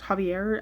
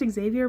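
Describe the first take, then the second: First: The name begins with a sound suggesting J spelling. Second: The name begins with the sound the X suggests. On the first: "if it was Javier, it would be spelled with a J" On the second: "I've heard it pronounced Xavier"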